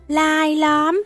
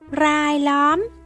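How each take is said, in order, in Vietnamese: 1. Từ này bắt đầu bằng âm L. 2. Từ này bắt đầu bằng âm R. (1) "trong văn nói âm r sẽ được phát âm là âm l" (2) "đọc đúng chính tả là rai lóm"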